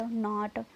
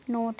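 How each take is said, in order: First: नॉट with an open "aa", like "naat"; open AA vowel. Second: नोट with a round "o", like "note"; round O vowel. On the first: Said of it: "आ की sound आ रही है". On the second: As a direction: say नोट with "oh", not "aa". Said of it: "sorry". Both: Shown as a demonstration.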